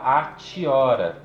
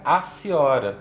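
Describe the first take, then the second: First: The middle consonant is a T sound. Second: The middle consonant is an S sound. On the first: The speaker calls it wrong. "a gente não fala atiora" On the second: The speaker calls it right. "Esse T I vira som de si e fica aciora"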